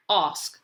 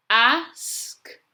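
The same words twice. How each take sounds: First: Said in the usual way. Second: "Ask" stretched sound by sound, high and loud. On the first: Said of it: "you're going to read the word". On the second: Shown as a demonstration. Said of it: "say the letters as you're writing".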